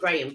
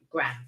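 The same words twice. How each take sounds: First: It is said in a British pronunciation. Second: It is said in an American pronunciation. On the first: This is how people here say it. "we would pronounce it Graham" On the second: This is how people over there say it. "you guys over there pronounce it Graham"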